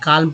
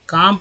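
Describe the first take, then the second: First: The word is said with an l sound. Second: The word is said without an l sound. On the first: The speaker calls it wrong. "ना कि काल्म पढ़ते हैं" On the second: The speaker calls it right. "काम पढ़ते हैं"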